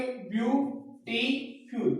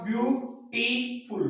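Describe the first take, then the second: First: ब्यूटीफुल split slowly into its three syllables, ब्यू-टी-फुल. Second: Said in the usual way. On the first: Shown as a demonstration. Teacher showing students the syllables: ब्यूटीफुल said slowly, ब्यू-टी-फुल. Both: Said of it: "इसको हम ऐसे बोलेंगे".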